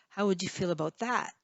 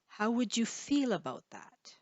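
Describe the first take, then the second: First: The word that carries the main stress. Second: The word feel carries the main stress. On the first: "you might want to stress that" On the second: "feel is probably the stressed syllable"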